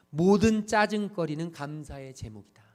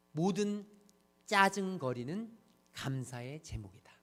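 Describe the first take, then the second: First: Loud, punched first word in one run; emphatic announcement. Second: Slow, spaced repetition. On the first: Preacher announcing a talk title to the congregation, emphatic. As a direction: announce it in one breath, leaning on 모든. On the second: Preacher repeating the title for listeners to absorb, slow and spaced. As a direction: let each phrase sink in. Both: Shown as a demonstration.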